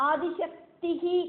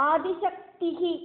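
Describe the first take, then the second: Both takes have the same delivery.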